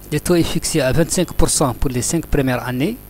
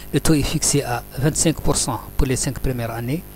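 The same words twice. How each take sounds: Both takes have the same delivery.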